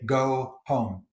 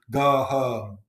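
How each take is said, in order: First: "Go home" with gliding standard O diphthongs; teacher's careful vowels. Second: "Go home" with Yorkshire pure O vowels; Yorkshire monophthongs in "Go home"; relaxed Yorkshire accent from outside school. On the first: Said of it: "the teacher, me, would say". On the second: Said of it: "But the home voice". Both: Shown as a demonstration.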